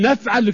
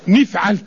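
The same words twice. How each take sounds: First: The first syllable has the vowel a. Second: The first syllable has the vowel i. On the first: "وتاني يقول نفعل كذا" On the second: "في النطق كسر حرف المضارعة، مثل يقول نفعل كذا"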